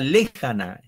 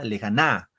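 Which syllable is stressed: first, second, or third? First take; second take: first; third. First: The stress is on the first syllable. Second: The stress is on the third syllable. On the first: "si Fren le diría lejana" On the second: "Si Fren la na"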